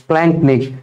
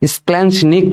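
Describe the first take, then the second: First: The middle consonant is a 'k' sound. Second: The middle consonant is a 'ch' sound. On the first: This is the real pronunciation. The speaker calls it right. "But এটার সঠিক উচ্চারণ হবে স্প্ল্যাঙ্কনিক" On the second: This is how the textbook writes it. The speaker calls it wrong. "আমাদের এই লেভেলের বইতে তারা হচ্ছে স্প্ল্যাঞ্চনিক কথাটা লিখছে"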